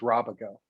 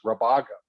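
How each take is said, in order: First: The stress is on the first syllable. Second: The stress is on the second syllable. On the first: This is how it reads with the accent mark. The speaker calls it right. "to try to steer them towards Rabago" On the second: This is how it reads without the accent mark. The speaker calls it wrong. "without the accent it is Rabago"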